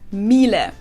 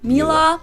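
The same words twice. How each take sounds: First: The word ends in a short, weak 'uh' vowel. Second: The word ends in an open 'ah' vowel. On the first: "whereas in German we say Miele" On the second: "English native speakers usually say something like Miele, Miele. Um, so it usually sounds more like an A in the end"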